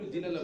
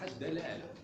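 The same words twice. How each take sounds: First: The first syllable has an 'i' vowel. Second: The first syllable has an 'a' vowel. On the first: The speaker calls it wrong. "نقول الدلالة بالكسر" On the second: The speaker calls it right. "لكن الأفصح الدلالة"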